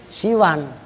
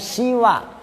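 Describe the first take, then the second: First: The vowel is said short. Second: The vowel is said long. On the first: "mat dibaca pendek" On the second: "boleh juga dibaca panjang"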